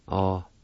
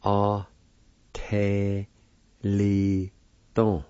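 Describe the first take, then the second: First: Artelido said as one smooth word; whole word. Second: A, te, li, ton with a short pause after each part; teacher splitting a word into syllables. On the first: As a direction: blend the syllables into one word. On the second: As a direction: break the word into beats for learners. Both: Shown as a demonstration. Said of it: "is pronounced like this".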